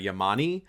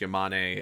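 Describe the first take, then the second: First: The name ends with an 'ee' vowel. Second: The name ends with an 'eh' vowel. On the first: The speaker calls it wrong. "he mispronounce uh, like a few characters' names" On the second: The speaker calls it right. "he calls the paleontologist Yamane"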